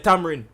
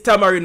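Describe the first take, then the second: First: The word is shortened to fewer syllables. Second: The word is said with all its syllables. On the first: This is a casual form the speaker prefers. "tamarind just sound like a lot of syllables for me. So me just say tamarind" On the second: This is the technically correct form. "it technically is tamarind because it's T A M A R I N D"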